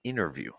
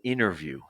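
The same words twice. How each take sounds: First: The t after the n is dropped. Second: The same.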